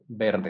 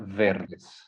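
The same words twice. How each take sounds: First: The word begins with a B sound. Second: The word begins with a V sound. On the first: The speaker calls it right. "the V doesn't exist in Spanish. It's verdes" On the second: The speaker calls it wrong. "Not verdes"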